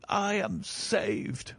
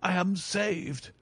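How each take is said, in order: First: Higher still and very slow, almost sobbing with joy; deeper relief. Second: Higher, slow, drawn-out joy; overjoyed relief. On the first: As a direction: sink into the relief, stretching it out. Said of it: "The reaction of joy was as passionate". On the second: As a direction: savour every word of rescue. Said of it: "With a shriek of joy". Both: Acted.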